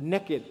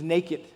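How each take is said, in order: First: It is said in a Southern American way. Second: It is said in a standard, non-Southern way.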